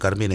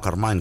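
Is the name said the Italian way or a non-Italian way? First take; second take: Italian; non-Italian. First: The name is said the Italian way. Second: The name is said a non-Italian way. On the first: The speaker calls it right. "hay que decir Carmine" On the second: The speaker calls it wrong. "y no Carmine"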